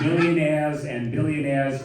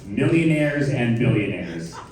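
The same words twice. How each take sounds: First: The R sounds are dropped. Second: The R sounds are clearly pronounced. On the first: "They don't anymore, okay? Get rid of them" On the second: "in your regular voice"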